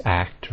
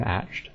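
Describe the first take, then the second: First: Slow, clear "act", k before t; corrected ending. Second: Acht with a soft "sh" sound; slow "acht", hushing before the t; mistaken ending. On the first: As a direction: act with a hard k sound. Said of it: "is act rather than acht". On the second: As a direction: say acht as "asht". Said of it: "rather than acht". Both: Shown as a demonstration.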